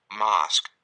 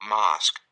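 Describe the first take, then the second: The two takes are said the same way.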